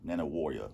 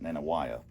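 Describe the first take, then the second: First: The name ends with a full 'warrior' sound. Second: The name ends with a short 'waya' sound. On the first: This is the locally correct pronunciation. "that's how you pronounce it" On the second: This is the speaker's former pronunciation. "I used to pronounce it"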